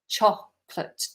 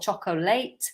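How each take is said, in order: First: The word is said with two syllables. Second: The word is said with three syllables. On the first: The speaker calls it right. "Two syllables" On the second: The speaker calls it wrong. "not chocolate"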